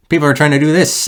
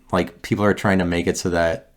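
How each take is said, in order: First: Higher, louder frustrated burst; exasperated outburst. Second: Said in the usual way. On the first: Real, not acted. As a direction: blurt it out in exasperation. Ranting about standards, voice jumps.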